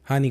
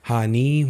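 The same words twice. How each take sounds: First: The final i vowel is short. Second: The final i vowel is long. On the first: The speaker calls it right. "हानि हानि कहा मैंने" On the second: The speaker calls it wrong. "मैंने ऐसा तो नहीं कहा"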